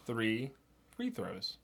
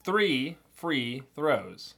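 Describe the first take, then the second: First: Softer, quicker Three free throws; quicker, softer tongue twister. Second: Very slow, careful Three free throws; slow tongue twister. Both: Shown as a demonstration. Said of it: "Pick one of those on that list".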